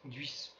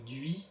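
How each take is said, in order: First: The word ends with an S sound. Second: The word ends without an S sound. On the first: This is how people further south say it. "vous prononcerez le S final" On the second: This is how people further north say it. "si vous êtes plus au nord, vous direz plutôt"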